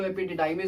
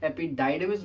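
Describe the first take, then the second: First: "epididymis" in the variant some people use, unlike epi-DYE-dimis; alternative pronunciation. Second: "epididymis" as epi-DYE-dimis, a little slowly; preferred pronunciation. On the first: Teacher quoting how some people say it, variant "epididymis". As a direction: say "epididymis" the less preferred way, as epi-DID-imis. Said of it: "कुछ लोग इसको epididymis भी कह देते हैं". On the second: Teacher recommending the better way to students, preferred "epididymis" as epi-DYE-dimis. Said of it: "वो ज़्यादा बेहतर होता है". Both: Shown as a demonstration.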